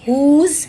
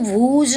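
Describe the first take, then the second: First: The word begins with an h sound. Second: The word begins with a w sound. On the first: The speaker calls it right. "डब्ल्यू silent हो जाता है" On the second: The speaker calls it wrong. "इसको वूज नहीं बोलेंगे"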